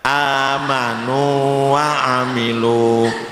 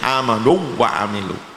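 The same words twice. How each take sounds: First: The vowel before the w is held long. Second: The vowel merges into a doubled w. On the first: The speaker calls it right. "tidak boleh diidghamkan, tetap dibaca panjang" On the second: The speaker calls it wrong. "tidak boleh"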